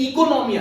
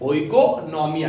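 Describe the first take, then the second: First: The word begins with an 'ee' sound. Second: The word begins with an 'oh-ee' sound. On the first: This is how the word is actually pronounced. "उसका प्रोनाउंसिएशन इकोनॉमिया है" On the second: This form helps with remembering the spelling. "ओ बोलेंगे तो याद रहेगा"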